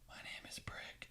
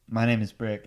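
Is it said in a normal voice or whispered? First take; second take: whispered; normal. First: It is whispered quietly. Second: It is said in a normal voice.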